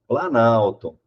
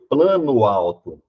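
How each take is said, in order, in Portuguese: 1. Uma palavra só, com a vogal do meio apagada. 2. Duas palavras separadas, cada vogal mantida. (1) "Aqui eu pronuncio planalto" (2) "Eu não pronuncio plano alto"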